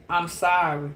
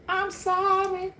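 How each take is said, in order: First: Said in the usual way. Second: High, slow, whiny mock sorry; mock apology. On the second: The ex's friend begging forgiveness, high whiny mock. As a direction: stretch the sorry out high and pitiful. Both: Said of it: "they're gonna come trying to tell you".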